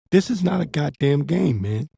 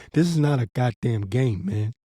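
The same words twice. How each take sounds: First: Repeated higher and pressed, hitting goddamn; emphatic warning. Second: Said in the usual way. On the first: Shown as a demonstration. Preacher warning Israelites a second time, higher and emphatic. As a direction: hammer the warning home harder. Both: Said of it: "This is deadly serious".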